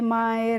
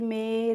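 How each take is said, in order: First: The vowel glides like 'eye'. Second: The vowel is a plain 'eh'. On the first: The speaker calls it wrong. "इस तरीके से नहीं pronounce करना है" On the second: The speaker calls it right. "इस तरीके से हम इनको पढ़ेंगे"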